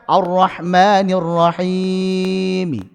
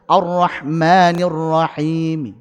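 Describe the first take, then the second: First: The final long vowel is drawn out longer. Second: The final long vowel is held briefly. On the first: The speaker calls it wrong. "Enggak bisa" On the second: The speaker calls it right. "Dua harakat saja"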